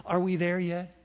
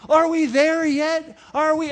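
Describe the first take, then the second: First: Low, soft first ask; a quieter, lower first try at the question; kid whining. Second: Put-on whiny kid. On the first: Retold or imitated. Bored kid to dad, softer and lower. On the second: Kid in the back seat asking dad, slow whine. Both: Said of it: "Do you remember this phrase".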